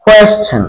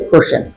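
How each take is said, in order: First: কোয়েশ্চেন with a "kw" onset, as "kwes-chen"; the right "kwes-chen"; কোয়েশ্চেন pronounced "kwes-chen"; correct pronunciation. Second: কোশ্চেন as "kosh-chen", with no w; the common wrong "kosh-chen"; কোশ্চেন pronounced "kosh-chen"; wrong pronunciation. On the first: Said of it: "কিন্তু এর উচ্চারণ হবে". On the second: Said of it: "আমরা এটাকে বলি কোশ্চেন". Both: Shown as a demonstration.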